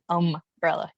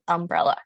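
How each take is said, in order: First: "umbrella" with a drawn-out UM; attempted UM stress. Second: Said in the usual way. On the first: Shown as a demonstration. Speaker failing at other version, UM-brella stressed. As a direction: try weighting the UM in umbrella. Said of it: "I can't do umbrella". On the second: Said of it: "It's an umbrella".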